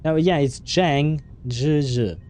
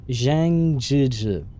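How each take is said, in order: First: "Zhang" begun with a ch sound, "Zhizhi" run together smoothly; corrected Chinese name. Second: "Zhang Zhizhi" said very slowly, each syllable drawn out; careful Chinese name. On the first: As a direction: say "Zhang Zhizhi" with a ch onset at moderate pace. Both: Shown as a demonstration. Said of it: "brush up on my Chinese accent".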